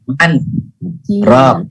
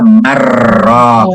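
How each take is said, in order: First: The n is clearly sounded before the r. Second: The n merges fully into the following r. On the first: This verse is an exception to the rule. "nunnya tetap dibaca man ro" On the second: This is how the rule would normally apply. "Harusnya dibacanya wakila marro"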